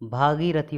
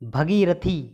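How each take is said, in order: First: The first vowel is long. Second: The first vowel is short. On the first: The speaker calls it right. "भागीरथी होता है, ये सही" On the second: The speaker calls it wrong. "भगीरथी गलत"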